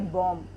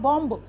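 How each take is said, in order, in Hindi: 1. अंतिम 'b' की ध्वनि साइलेंट होती है। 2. अंतिम 'b' की ध्वनि बोली जाती है। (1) "इसमें बी साइलेंट होता है" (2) "हम इसे सीधा उच्चारण करते हैं तो ये होगा बॉम्ब"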